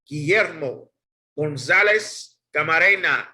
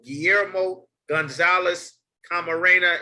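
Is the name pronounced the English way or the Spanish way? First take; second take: Spanish; English. First: The name is said with Spanish pronunciation. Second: The name is said with English pronunciation.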